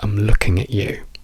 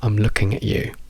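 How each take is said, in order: First: The word 'at' is reduced to a schwa. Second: The word 'at' is reduced to a schwa.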